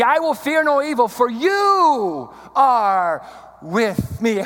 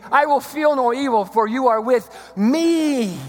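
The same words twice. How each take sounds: First: A big, lingering YOU, then slow "are with me"; stress on YOU. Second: "me" held long and raised at the end; stress on ME. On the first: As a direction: stretch and lift the word "you". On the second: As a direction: save the punch for "me". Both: Shown as a demonstration. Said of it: "emphasize different words".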